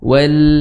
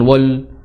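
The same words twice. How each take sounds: First: The l is pronounced thin and light. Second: The l is pronounced thick and heavy. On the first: The speaker calls it right. "lamnya juga apa, e, istifal ya" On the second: The speaker calls it wrong. "jangan wal"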